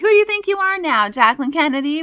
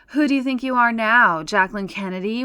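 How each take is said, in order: First: The line sounds friendly and good-natured. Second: The line sounds harsh and mocking. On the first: The speaker calls it right. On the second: The speaker calls it wrong.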